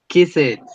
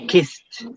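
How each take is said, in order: First: The ending is an extra syllable. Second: The ending is a single sound. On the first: The speaker calls it wrong. "horrible mistake" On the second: The speaker calls it right. "No, kissed"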